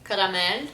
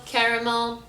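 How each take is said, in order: First: Caramel with a tapped R; Lebanese pronunciation. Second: Caramel in an American accent. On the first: Showing the Lebanese way, tapped R in caramel. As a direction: say caramel as "ka-ra-mel", stressed at the end. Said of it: "talk about food now". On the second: Announcing the food word, American accent. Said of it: "say it in an American accent". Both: Shown as a demonstration.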